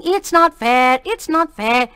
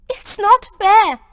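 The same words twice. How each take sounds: First: Mimicking a whiny sob on not; mock her tearful protest; a boy mimicking his friend's blubbering. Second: High, loud protest about to cry; a tearful girl protesting injustice. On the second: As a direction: protest through welling tears. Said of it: "her big eyes filling". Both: A narrator's reading.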